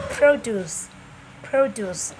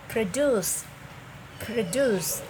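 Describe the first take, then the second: First: "produce" as a noun, PRO-duce, first syllable punched; stress on first syllable. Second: "produce" as a verb, pro-DUCE, second syllable stressed. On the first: Teacher showing learners the noun "produce", stressed on the first syllable. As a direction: say "produce" with the beat on PRO, falling away on duce. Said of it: "the stress is on the first syllable". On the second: Teacher showing learners the verb "produce", stressed on the second syllable. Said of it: "stress is on the second syllable". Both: Shown as a demonstration.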